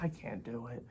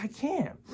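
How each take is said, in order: First: Muttered low and soft, defeated; quiet give-up. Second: Pitched way up, mock exasperated; exasperated whine. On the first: Retold or imitated. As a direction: mumble it under your breath like giving up. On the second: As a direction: squeak it out in fed-up disbelief. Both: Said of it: "I'm like".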